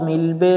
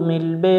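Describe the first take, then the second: No difference in how they are said.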